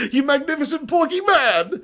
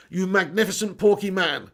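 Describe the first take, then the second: First: Higher, amused, savoring the words; gleeful echo of a fan's compliment; delighted laughing repeat. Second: Said in the usual way. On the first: Real, not acted.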